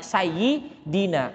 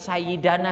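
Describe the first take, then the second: First: The vowel after the d is i. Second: The vowel after the d is a. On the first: The speaker calls it right. "tapi sayyidina" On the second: The speaker calls it wrong. "Enggak mungkin sayyidana"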